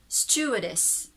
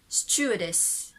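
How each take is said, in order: Both takes have the same delivery.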